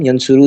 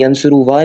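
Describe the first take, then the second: First: The word ends on a long u vowel. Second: The word ends with an added wa sound. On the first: The speaker calls it right. "यंसुरु ही कहते हैं" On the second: The speaker calls it wrong. "स प्रोनाउंस नहीं होता यानी यंसुरुवा नहीं कहते हम"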